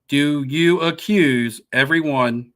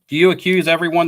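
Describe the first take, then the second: First: The question is said more slowly. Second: The question is said at normal speed.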